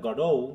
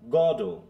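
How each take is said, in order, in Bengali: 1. Stress দ্বিতীয় সিলেবলে। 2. Stress প্রথম সিলেবলে। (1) "ও stress" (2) "গড কে জোরে তারপরে ও"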